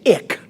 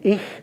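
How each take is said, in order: First: The word ends in a hard k sound. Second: The word ends in a soft hissing sound. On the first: The speaker calls it wrong. "he would always say ick, like I C K" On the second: The speaker calls it right. "Rather than ich, I C H"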